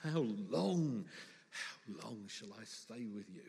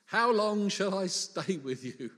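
First: Weary exasperation. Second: Loud, drawn-out plea at higher pitch; exasperated Jesus. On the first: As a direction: sigh it out, patience draining away. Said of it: "[name] caught the feeling quite well". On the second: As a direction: stretch it out, at the end of your patience. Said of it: "a certain amount of sympathy when Jesus says". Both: Acted.

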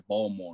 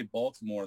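First: "Baltimore" squashed to "Bawlmore"; local-style "Baltimore", said as two syllables, "Bawl-more"; swallowed middle. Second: Said in the usual way. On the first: Retold or imitated. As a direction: drop the T and middle vowel of "Baltimore". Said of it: "they say Baltimore". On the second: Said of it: "when they say Baltimore".

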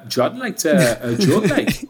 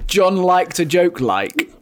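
First: Slow mock Geordie line. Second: Slow, higher mock Geordie; Geordie mimic. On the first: Friend mimicking the accent the journalist used. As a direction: drawl it like a Geordie. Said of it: "I'm gonna use the accent". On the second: Host mocking the widow's words in slow Geordie. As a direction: drawl the quote in mock Geordie. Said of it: "that's so Geordie".

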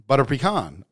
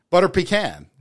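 First: "pecan" said pee-KAHN, with an open AH; puh-KAHN pronunciation. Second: "pecan" said PEE-can, ending like "can"; higher-pitched "pecan" with a short A, PEE-can; PEE-can pronunciation. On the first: Host trying out the other's version, "pecan" as pee-KAHN. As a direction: end "pecan" on KAHN, rhyming with "on". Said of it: "I say pecan". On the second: Host trying out both versions, "pecan" as PEE-can. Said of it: "You're saying pecan". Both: Shown as a demonstration.

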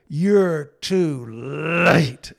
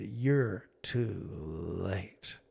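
First: Louder and higher, very slow, strained cry; a low, held-in scream of anger; muffled scream. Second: Low, soft, very slow reproach; a son's quiet, heavy accusation to his father; bitter grief. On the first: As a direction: son pounding his thighs, screaming at his father. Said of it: "kinda screamed, low muffled scream". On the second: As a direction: let each word sink, hurt and quiet. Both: Retold or imitated.

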